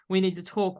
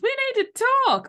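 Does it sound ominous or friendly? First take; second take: ominous; friendly. First: It sounds ominous and threatening. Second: It sounds friendly and cheerful.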